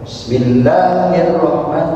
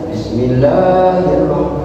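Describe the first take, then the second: First: The long vowel is held only one beat. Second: The long vowel is held for two beats. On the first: The speaker calls it wrong. "Ini baru tik" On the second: The speaker calls it right. "jadi harus"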